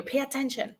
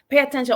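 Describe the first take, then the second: First: Softer, pressed "Pay attention"; quiet warning. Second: Louder, punched "Pay attention"; loud warning. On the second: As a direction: call it out firmly. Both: Shown as a demonstration.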